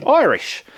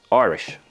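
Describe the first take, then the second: First: Excited shout. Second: Said in the usual way. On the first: Shown as a demonstration. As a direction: call it out like a quiz answer. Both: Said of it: "whiskey is what?".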